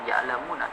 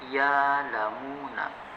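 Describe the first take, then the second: First: A glottal stop follows the first syllable. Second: A long vowel replaces the glottal stop. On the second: "Hamzah di sana diganti dengan huruf mad"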